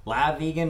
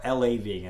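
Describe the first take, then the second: First: The first part is one syllable, 'la'. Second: The first part is spelled as two letters. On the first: "say La Vegan" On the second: "not L A"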